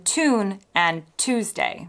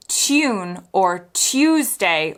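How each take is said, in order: First: Tune and Tuesday without y, TOON and TOOZ-day; American pronunciation. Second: Tune and Tuesday with a y glide, CHOON, CHOOZ-day; British pronunciation. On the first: Teacher contrasting with British, tune and Tuesday as American TOON, TOOZ-day. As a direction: slowly say plain oo in tune and Tuesday. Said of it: "rather than". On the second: Teacher showing many British accents, tune and Tuesday as TYOON, TYOOZ-day. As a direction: slowly put the y sound into tune and Tuesday. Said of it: "in many British accents, you can hear that they're saying".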